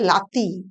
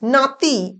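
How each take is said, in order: First: The word begins with an l sound. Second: The word begins with an n sound. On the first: This is the Jharkhandi dialect form. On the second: This is the standard form.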